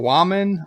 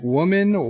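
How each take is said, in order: First: "woman" with first vowel opened to "wah"; altered vowel in "woman". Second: Said in the usual way. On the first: Shown as a demonstration. Puzzling over a name, trying "woman" as "wah-man". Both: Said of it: "I don't, I don't know".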